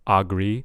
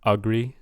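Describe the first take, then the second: First: The first vowel is a full, clear vowel. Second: The first vowel is a reduced uh sound. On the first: The speaker calls it wrong. "I'm kind of hearing ag- agree" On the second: The speaker calls it right. "we kind of want to hear an uh there"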